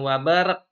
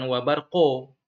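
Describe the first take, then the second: First: It ends in a plain, flat k sound. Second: The q is followed by a full vowel. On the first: "bukan wabarak, wabarak salah ya" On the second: "seolah-olah kayak fathah kalau wabarqo"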